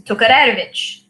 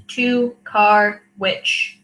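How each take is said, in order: First: Tokarewicz with a tapped r, toh-ka-reh-vitch; Ukrainian pronunciation. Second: Tokarowicz said slowly as toe-kar-oh-witch; Americanized pronunciation. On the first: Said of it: "that's the Ukrainian way to say it". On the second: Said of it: "K A R E W I C H". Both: Shown as a demonstration.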